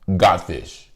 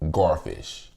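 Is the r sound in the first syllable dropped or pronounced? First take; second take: dropped; pronounced. First: It is said in a Louisiana accent. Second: It is said the way other states say it.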